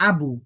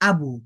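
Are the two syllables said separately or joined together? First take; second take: joined; joined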